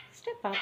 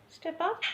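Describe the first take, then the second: First: Said in the usual way. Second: "Step up" pitched much higher with a rising end; coaxing a parrot up in a high voice; high sing-song cue. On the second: Shown as a demonstration. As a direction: lift the pitch and rise on "up". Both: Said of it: "lost her step up training".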